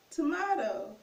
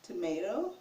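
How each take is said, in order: First: "Tomato" as to-MAH-to, pitched higher; tomahto pronunciation. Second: Said in the usual way. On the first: Shown as a demonstration. Teacher shows the other version, "Tomato" as to-MAH-to. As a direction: say "Tomato" with a raised "ah" in the middle. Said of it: "pronounce it tomato". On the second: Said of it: "So tomato or tomato".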